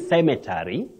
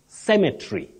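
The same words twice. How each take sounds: First: The vowel before the final 'ry' is pronounced. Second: The vowel before the final 'ry' is silent. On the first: The speaker calls it wrong. "don't say cemetery" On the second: The speaker calls it right. "The E, which is the last one, is not pronounced"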